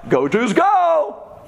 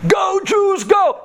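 First: High, slow stretched fan chant; drawn-out mock cheer. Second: High, loud fan chant; mock cheering shout. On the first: Preacher retelling the turncoat cheer, slow high mock chant. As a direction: drag out the chant like a stadium crowd. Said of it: "rooting for whoever's winning". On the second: Datan and Aviram switching sides, loud high mock cheer. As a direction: yell it like a turncoat fan. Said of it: "took out new signs".

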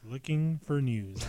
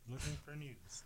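First: Slower, clearer repeat. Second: Very soft, away from the mic; quiet. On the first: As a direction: say it again slowly so they catch it. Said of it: "What did he say?". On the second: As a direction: mumble it under your breath. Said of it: "You keep getting quiet on us". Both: Real, not acted.

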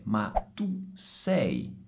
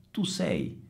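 First: "tu sei" stretched slow and quiet; slow correction. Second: "tu sei" repeated softly and a little higher. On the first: Teacher giving the right form, slow and soft. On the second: Teacher echoing the correct form softly. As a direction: echo "tu sei" gently. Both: Shown as a demonstration. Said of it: "non si dice tu è".

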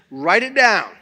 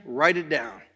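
First: "Write it down" repeated louder, landing hard on "down"; emphatic command. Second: Said in the usual way. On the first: Shown as a demonstration. Pastor urging the church to write a name, firm stressed repeat. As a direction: insist they write it, punch "down".

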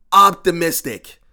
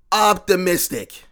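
Both takes have the same delivery.

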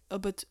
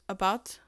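First: Slipping into a Mexican accent. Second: Said in the usual way. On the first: Real, not acted. Host stumbles on "about", Mexican accent coming out. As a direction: let a slight Mexican accent slip out. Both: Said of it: "my Mexican accent is coming out".

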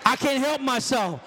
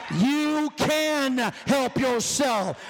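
First: Put-on excuse in the preacher's voice; mock excuse-maker. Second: YOU and CAN drawn out slowly; slow, hammered stress on "You can"; emphatic rebuttal. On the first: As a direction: imitate a churchgoer's excuse. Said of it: "This is how you all talk". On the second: Real, not acted. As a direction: stretch "You can" in firm contradiction. Preacher rebutting the mimicked excuse.

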